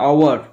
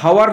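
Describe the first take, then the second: First: The word begins with a vowel sound. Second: The word begins with an h sound. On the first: The speaker calls it right. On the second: The speaker calls it wrong. "এর উচ্চারণটা হাওয়ার নয়"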